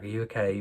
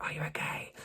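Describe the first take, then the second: First: Said in the usual way. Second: Imitated concerned whisper; hushed, voiceless whisper. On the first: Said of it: "she's more like". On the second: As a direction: whisper it softly, checking on someone. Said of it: "'Cause she's whispering everything".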